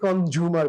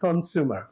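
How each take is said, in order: First: The middle consonant is a J sound. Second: The middle consonant is an S sound. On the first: The speaker calls it wrong. "আমরা অনেকে কনজিউমার বলি, যে জাপানের যে" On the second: The speaker calls it right. "এস একেবারে সিঙ্গাপুরের এস, কনজিউমার এইভাবে বললে ভালো শুদ্ধ হয়"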